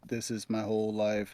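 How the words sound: It sounds low and sad. "Like it sounded kind of sad"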